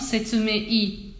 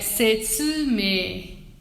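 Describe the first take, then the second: First: The i is strong and clearly pronounced. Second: The i is weak, just lengthening the e. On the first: The speaker calls it wrong. "não setsume-i. O i não, não cresce" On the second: The speaker calls it right. "É setsume"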